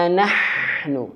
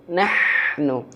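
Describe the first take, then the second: The two takes are said the same way.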